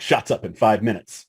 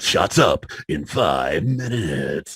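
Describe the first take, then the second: First: It is said in a plain, ordinary speaking voice. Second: It is said in a dramatic movie-trailer announcer voice. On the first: It is just routine talk on set. "it might just be like set talk" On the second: It is a joke to make someone laugh. "I was supposed to say it back in the movie guy voice"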